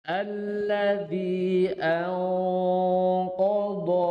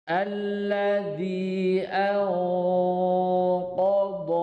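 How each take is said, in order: Both takes have the same delivery.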